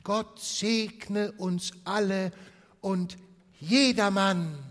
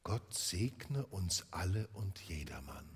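First: High, loud, slow blessing; family chorus, high and loud; festive toast. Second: Put-on much softer, lower little boy's blessing; a frail child echoing the toast; Tiny Tim, soft and gentle; small sick boy. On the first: Acted. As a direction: raise the glass and bless everyone. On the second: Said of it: "war ein kleiner Junge".

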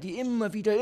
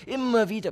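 First: Said in the usual way. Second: Immer wieder thrown out high and loud; emphatic repeat. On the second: Acted. Gesteigerte Wiederholung. (nachdrücklich hoch und laut „Immer wieder“)

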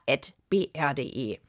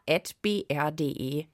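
Both takes have the same delivery.

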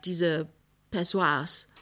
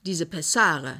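First: Pessoas said for Pessare, a fumbled wrong word; embarrassed slip, Pessoas instead of Pessare; mispronounced. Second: Pessare said clearly and properly, a doctor's correction; doctor correcting the patient, Pessare pronounced right; correct word. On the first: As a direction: stumble over Pessoas, getting the word wrong. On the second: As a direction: set the word straight: Pessare. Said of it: "sagt der Arzt". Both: Acted.

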